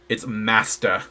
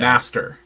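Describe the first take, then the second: First: The word ends without a strong R sound. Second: The word ends with a strong R sound. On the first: The speaker calls it right. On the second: The speaker calls it wrong.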